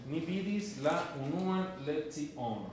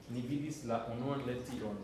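First: Slowed, each word laid out for students; slow clear repeat. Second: Said in the usual way. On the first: Shown as a demonstration. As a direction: say it slowly so the class can follow. (lenta y clara, para que la clase repita) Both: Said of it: "yo te voy a traducir".

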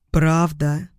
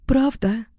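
First: Said in the usual way. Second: Put-on higher, girlish disbelief; hopeful question. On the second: A narrator's reading. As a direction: ask with fragile hope. Hopeful woman asks if true. (с надеждой, высоким голосом)

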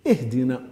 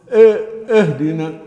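First: "اهدنا" lower, opened on a clear i, "ihdina"; correct "ih" opening. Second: "اهدنا" louder, opened with "e" as "ehdina"; wrong "eh" opening. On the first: Teacher correcting the mistake, "ih" not "eh". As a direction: begin "اهدنا" with a pure kasra. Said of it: "هي إيه". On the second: Teacher showing a common mistake, "eh" for "ih". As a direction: start "إيه، اهدنا" on a mid e. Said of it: "خطر آخر". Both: Shown as a demonstration.

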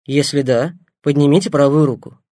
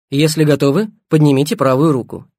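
First: Calm doctor speaking over the earpiece; voice in headphones. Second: Louder instruction over headphones. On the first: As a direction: clear instruction through headphones. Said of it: "негромкий голос Семёна". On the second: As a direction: repeat the request through the earpiece. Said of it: "голос Семёна". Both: A narrator's reading.

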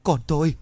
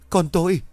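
First: Bursting into tears. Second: Much higher, louder anguished wail; wailing sob. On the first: Mother collapsing in grief over her son, wailing. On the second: Mother learning her son was taken, anguished wail. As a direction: cry out in full despair. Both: A narrator's reading. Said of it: "quỳ sụp xuống rồi khóc òa lên".

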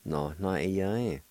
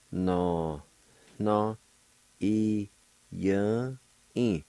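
First: "No, no, i, ya, in" run together as one word; joined-up pronunciation. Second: "No... no... i... ya... in" with a pause after each syllable. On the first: Teacher showing learners the word for elsewhere, "No, no, i, ya, in" joined up. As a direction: say "No, no, i, ya, in" without breaks. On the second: Teacher showing learners the word for elsewhere, "No, no, i, ya, in" syllable by syllable. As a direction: sound out "No, no, i, ya, in" piece by piece. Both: Shown as a demonstration.

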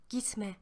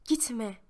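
First: Gitme said much softer, fading away; softly pleading Gitme; fading plea. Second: Said in the usual way. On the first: A narrator's reading. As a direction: let Gitme die off as she falls behind. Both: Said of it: "Bağırıyorum bir yandan da".

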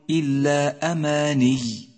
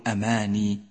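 First: أماني slowly intoned with a doubled, pressed final ي; clear final shadda. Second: أماني with a light, undoubled final ي; dropped shadda error. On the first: Teacher showing how to stop on the word, أماني with audible shadda. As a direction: lean on the final ي of أماني and hold it. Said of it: "فأظهر الشدة". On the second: Teacher showing the mistake to avoid, أماني spoken without shadda. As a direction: let أماني end on a simple long i. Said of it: "ولا تقل أماني". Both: Shown as a demonstration.

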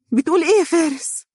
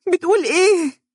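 First: Put-on high, stunned young woman's question; disbelieving. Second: High, louder shocked scream. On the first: Dunya hearing Faris was rejected, stunned and disbelieving. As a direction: cannot believe what she hears. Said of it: "هتفت دنيا غير مصدقة". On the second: Acted. Dunya repeating her question, screaming in shock. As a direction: cry out in shock. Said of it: "هتفت دنيا صارخة".

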